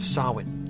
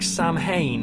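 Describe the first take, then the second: First: The word is said unlike its spelling. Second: The word is said the way it is spelled. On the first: The speaker calls it right. "it's more correct to pronounce it Samhain" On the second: The speaker calls it wrong. "you might recognize it more um, being pronounced like Samhain, because uh, it's spelt S A M H A I N"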